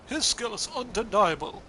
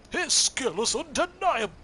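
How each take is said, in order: First: Louder, plainer heroic delivery; just state it heroically. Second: Loud, high, booming cartoon hero; Tony the Tiger voice. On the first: Acted. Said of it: "Tony, yeah, it's gotta go". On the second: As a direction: boom it out like a cereal-box tiger. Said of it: "Tony the Tiger-esque voice".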